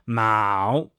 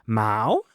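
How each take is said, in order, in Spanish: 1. El tono baja bastante y luego sube. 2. El tono sube como en una pregunta. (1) "si es tercer tono" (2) "el segundo tono es como si fuera una pregunta como ¿qué?"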